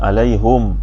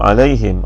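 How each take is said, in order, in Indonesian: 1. Vokal sebelum m terakhir adalah u. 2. Vokal sebelum m terakhir adalah i. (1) "dibaca dengan dhamma, yang merupakan bacaan hamzah" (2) "dibaca di sini"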